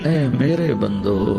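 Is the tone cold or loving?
loving. It is said in a warm, loving tone. The speaker calls it right.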